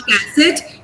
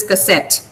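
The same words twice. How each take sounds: First: "cassette" as CASS-it, full first vowel; wrongly stressed first syllable. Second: "cassette" with short ka and strong SET; barely touch the first vowel, land on SET in "cassette"; correct final stress. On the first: Teacher showing the class the mistake, "cassette" stressed on CASS. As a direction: punch CASS, weaken the end of "cassette". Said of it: "it's not cassette". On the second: Teacher correcting the class, "cassette" stressed on SET. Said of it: "it is cassette". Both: Shown as a demonstration.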